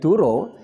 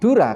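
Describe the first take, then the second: First: The word ends in an o vowel. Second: The word ends in an open a vowel. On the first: It means a lie. The speaker calls it wrong. "kalau dibaca O menjadi Duro" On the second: It means water. The speaker calls it right.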